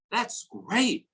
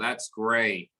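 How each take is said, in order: First: It is said with a high, excited pitch. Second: It is said in a flat, level pitch. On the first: The speaker is enthusiastic. "excitement, semangat, ya, high tone, nadanya tinggi" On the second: The speaker is bored, indifferent or sarcastic. "Consistent flat tone ya. ... boredom, indifference ya. Uh, sarkas"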